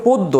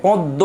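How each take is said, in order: First: পদ্ম said "poddo", closed o first; corrected pronunciation. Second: পদ্ম said "põddo", first vowel through the nose; nasalised pronunciation. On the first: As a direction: say পদ্ম with a round o and no nasal. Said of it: "এটা হবে". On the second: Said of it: "চন্দ্রবিন্দু আসবে যদিও এটা". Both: Shown as a demonstration.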